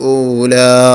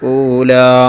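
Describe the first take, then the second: No difference in how they are said.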